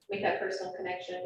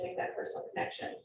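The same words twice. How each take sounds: First: Said in the usual way. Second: Unvoiced, fading repeat; whispered trailing off. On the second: Real, not acted. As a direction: let it fade to a low whisper. Looking at listeners one by one.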